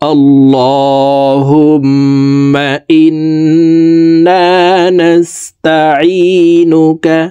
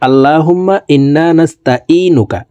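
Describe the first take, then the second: First: The words are pronounced carefully and precisely. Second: The words are pronounced loosely and imprecisely. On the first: The speaker calls it right. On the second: The speaker calls it wrong.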